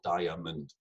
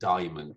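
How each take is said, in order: First: Every syllable is said fully and stressed. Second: The middle syllable is slightly reduced and elided. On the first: The speaker calls it wrong. "there's a tendency to overstress every syllable" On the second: The speaker calls it right. "It's actually diamond. We tend to elide slightly there"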